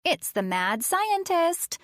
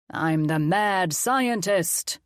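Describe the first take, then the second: First: Put-on high, slow playful spooky child's voice; a little girl teasing in a silly voice; funny voice. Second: Slow, drawn-out hammed-up villain voice; mad scientist. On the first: Addie warning John in a funny voice. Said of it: "she said in a funny voice". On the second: Colin playing mad scientist to the kids, gloating.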